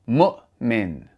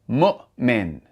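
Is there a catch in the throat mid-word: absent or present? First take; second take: present; present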